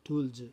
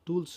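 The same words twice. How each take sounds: First: The word ends in a voiced z sound. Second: The word ends in a voiceless s sound. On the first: The speaker calls it right. "జ జ" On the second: The speaker calls it wrong. "టూల్స్ కాదు"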